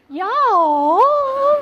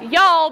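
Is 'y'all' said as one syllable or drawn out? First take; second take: drawn out; one syllable. First: It is drawn out over several syllables. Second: It is said short, as one syllable.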